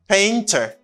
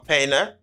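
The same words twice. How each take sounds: First: It is said without an American accent. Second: It is said with an American accent.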